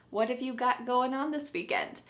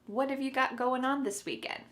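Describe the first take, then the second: The two takes are said the same way.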